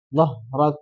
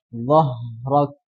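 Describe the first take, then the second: First: The h sound is short with little air. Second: The h sound flows with much breath. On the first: The speaker calls it wrong. "Tidak cukup dengan" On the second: The speaker calls it right. "Tapi harus dialihkan"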